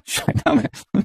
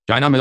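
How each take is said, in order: First: Breathy laugh through the words; mocking laugh at eating in China. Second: Said in the usual way. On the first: Real, not acted. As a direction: laugh it out in disbelief.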